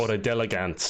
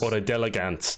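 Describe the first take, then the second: First: The name is pronounced the Australian way. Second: The same.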